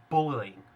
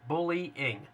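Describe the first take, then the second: First: Said in the usual way. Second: "Bullying" sounded out slowly, syllable by syllable; slow, careful pronunciation. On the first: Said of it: "am I saying that right?". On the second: Shown as a demonstration. Ghost hunting critic checking he says it right, "Bullying" slow and deliberate. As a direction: say "Bullying" slowly in separate pieces, bul-ly-ing. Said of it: "I have to say it slow".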